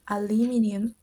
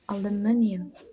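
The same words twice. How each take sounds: First: It is said with a British accent. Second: It is said with an American accent. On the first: "For the British English accent, it's" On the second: "while American accent sounds"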